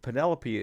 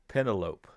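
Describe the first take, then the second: First: The name is said the usual, familiar way. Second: The name is said as it is spelled. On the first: The speaker calls it right. "is how I most people around me pronounce that word" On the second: The speaker calls it wrong. "when they saw it in writing, they thought it was pronounced like this"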